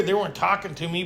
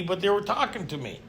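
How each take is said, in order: First: Weren't pushed up with a rising tune; stress on weren't. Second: Were said firmly, falling tune; stress on were. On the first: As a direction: lean hard on "weren't", rising. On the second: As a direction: hit "were" clearly and let it fall. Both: Shown as a demonstration.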